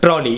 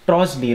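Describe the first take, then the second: First: No s sound is heard in the name. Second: An s sound is heard in the name. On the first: The speaker calls it right. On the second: The speaker calls it wrong.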